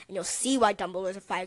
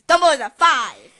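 First: Said in the usual way. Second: Loud emphatic declaration. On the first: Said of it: "'cause Dumbledore's a five!". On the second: Real, not acted. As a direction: shout the verdict out.

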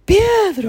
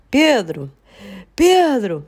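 First: High-pitched mock yell for help; retold cry from the bathroom floor; reenacted yell. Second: Calling a name, drawn-out falling tune; restrained reenacted call. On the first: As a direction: yell the name, pitch jumping up. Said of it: "comecei aos gritos". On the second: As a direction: call through the house for someone. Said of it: "fazer o seguinte".

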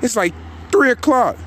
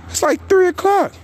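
First: Disbelief. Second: Three o'clock pitched way higher in disbelief; incredulous high squeak; squealed disbelief. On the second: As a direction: shriek the time out, unable to believe it. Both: Real, not acted. Outraged at the late hour.

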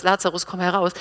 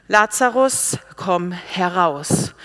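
First: Said in the usual way. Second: Raised, commanding call with drawn-out words; loud command. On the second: Acted. Jesus calls Lazarus out of the tomb, loud command. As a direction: summon him out with authority, slow and loud. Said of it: "rief er mit lauter Stimme".

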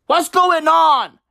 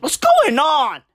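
First: What's going on, louder and slowed, leaning on going; louder, slower repeat. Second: Said in the usual way. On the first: Shown as a demonstration. Mocking the film to the viewers, a slowed, louder repeat. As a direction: push the question harder the second time. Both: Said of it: "repeated louder".

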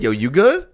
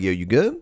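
First: Higher, challenging question rising on "good"; confrontational check-in. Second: Easy question in an everyday pitch; casual friendly check-in. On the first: One man answers another's check-in, confrontational. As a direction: throw it back as a challenge. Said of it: "depends on how you say it". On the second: Walking up to your man, casual friendly check-in. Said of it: "walk up to your man". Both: Shown as a demonstration.

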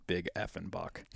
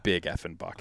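First: Hushed exclamation. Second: Said in the usual way. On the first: Retold or imitated. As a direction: keep it down in the stand, "Big effing buck". Hunter whispering in the stand.

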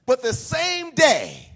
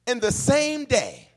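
First: Same drawn out slow and a little louder; pressing the word same to make the point; stress on same. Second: Said in the usual way. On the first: Shown as a demonstration. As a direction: lean on same, slowly. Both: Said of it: "no break in between".

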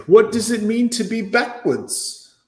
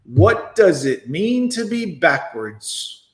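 First: High, slow mocking quote; mocking female voice. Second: Slow deliberate repeat. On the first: Mocking the woman's question to his viewers, slow and high. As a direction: parrot her words in a higher prissy voice. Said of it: "What a female thing to say". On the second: Shown as a demonstration. Replaying her question for viewers, slow and deliberate. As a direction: drag every word out slowly. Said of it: "she's showing us in real time".

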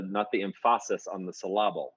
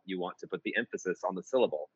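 First: Put-on wrongly accent the second syllables of "emphasis" and "syllable"; misplaced stress. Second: Said in the usual way. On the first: Mentor showing bad lyric setting, second-syllable stress on "emphasis" and "syllable". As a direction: stress "emphasis" on its middle, em-PHA-sis, and "syllable" as syl-LA-ble. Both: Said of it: "right emphasis on the correct".

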